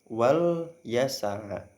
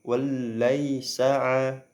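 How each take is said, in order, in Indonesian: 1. Bunyi L pendek, diucapkan sekali. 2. Bunyi L dirangkap dan dipanjangkan. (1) "dengan satu lam" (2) "dengan dua lam"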